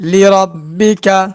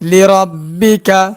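Both takes have the same delivery.

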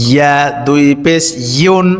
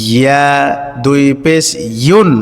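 The two takes are said the same way.

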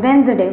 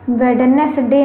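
First: The first 'd' is silent, giving two syllables. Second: Every letter is sounded, including the first 'd'. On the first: The speaker calls it right. "वेंसडे होता है" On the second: The speaker calls it wrong. "वेडनेसडे नहीं होता है"

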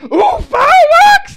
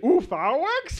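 First: The voice falls at the end. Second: The voice rises at the end. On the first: "like I was seeing pyrotechnics for the first time every time" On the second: "And then I asked it like a question"

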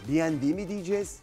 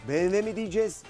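Both takes have the same delivery.

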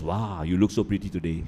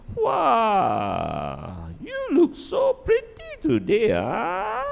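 First: It sounds insincere and sarcastic. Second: It sounds sincere and warmly meant.

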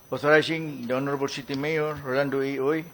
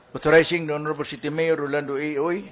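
Both takes have the same delivery.

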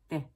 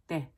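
Both takes have the same delivery.

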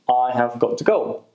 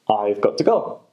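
First: 'Have got to' is said as full words. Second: 'Have' is contracted; 'got to' is said in full.

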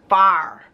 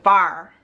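First: The word is said with a flat 'far' vowel. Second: The same.

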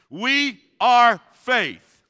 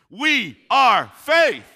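First: It is said weakly, with little energy. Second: It is said with more enthusiasm and energy.

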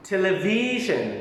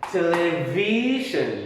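First: The third syllable carries the main stress. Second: The third syllable is not the stressed one. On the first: The speaker calls it right. "ออกเสียงตาม" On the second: The speaker calls it wrong. "ดังนั้นนี่เวลาอ่านไม่เป็น"

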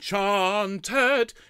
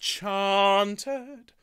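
First: The second syllable is as heavy as the first. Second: The second syllable is lighter than the first. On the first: The speaker calls it wrong. "Rather than chanted" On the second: The speaker calls it right. "it's chanted. So the second syllable is lighter"

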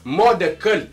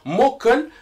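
First: The phrase is said in full, syllables distinct. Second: The phrase is squeezed into one reduced word. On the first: "em vez de falar" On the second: "e chega a falar"

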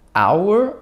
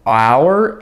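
First: The final R sound is dropped completely. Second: The final R sound is clearly pronounced. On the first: The speaker calls it wrong. "он говорит our, our, будто эта буква не существует" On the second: The speaker calls it right. "вместо того, чтобы он сказал our"

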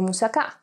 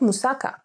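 First: It is said with a Greek pronunciation. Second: It is said with an English pronunciation. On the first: This is how Greeks say the word. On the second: This is how foreigners say the word.

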